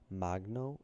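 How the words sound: It is pronounced with a non-American, ethnic accent. The speaker shares the family's ethnic background. "if you're um, ethnic"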